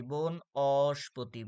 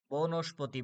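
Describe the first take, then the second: First: বন অস্পতি split after বন, the "o" held long; very slow বন অস্পতি, stretching অ before স্পতি; syllable breakdown. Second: Said in the usual way. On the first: Shown as a demonstration. (বন অস্পতি ভেঙে, অ ধ্বনি টেনে) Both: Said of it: "অর মতো উচ্চারণ আছে".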